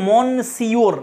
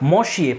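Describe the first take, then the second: First: It is read letter by letter, like 'mon-see-or'. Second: It is said the French way, like 'muh-syuh'. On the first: The speaker calls it wrong. "বানান দেখে তো মনে হচ্ছে মন সিওর এরকম, কিন্তু এরকম উচ্চারণ নয়" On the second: The speaker calls it right. "এটার উচ্চারণ হবে মশিয়ে"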